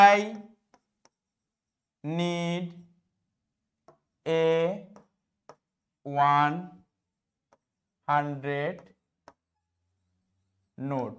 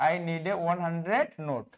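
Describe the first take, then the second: First: Slow, word by word, long pauses; slow dictation. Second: Said in the usual way. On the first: Shown as a demonstration. Teacher dictating an example sentence to students, slow and spaced. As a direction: spell it out one word at a time, slow. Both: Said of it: "যেমন".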